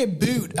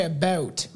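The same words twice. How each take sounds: First: "a boot" with a long oo vowel; "a boot", oo as in food; exaggerated Canadian "about". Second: "about" with a raised Canadian ou, not oo; "about", short raised diphthong; own Canadian "about". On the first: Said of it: "we don't say a boot". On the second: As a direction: say "about" as a real Canadian does. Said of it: "I say about". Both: Shown as a demonstration.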